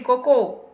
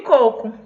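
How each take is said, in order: First: The stress is on the last syllable. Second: The stress is on the first syllable. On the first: It means poop. "a palavra coco ganha um significado diferente" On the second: It means coconut. "Não tem acento"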